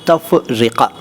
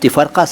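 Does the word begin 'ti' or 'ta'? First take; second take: ta; ti. First: It begins with ta and ends with -rika. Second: It begins with ti and ends with -rka. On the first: The speaker calls it right. "सही शब्द है तफरिका" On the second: The speaker calls it wrong. "तिफरका सही शब्द नहीं है"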